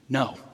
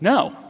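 First: It is said in a neutral tone. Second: It is said in a positive tone.

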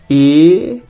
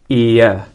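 First: The vowel is one long steady sound. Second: The vowel glides into a schwa at the end. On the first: "the last 2 long vowels that I'll use in Australian English in my pronunciation" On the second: "these might be instead given a schwa quality at the end and turned into diphthongs"

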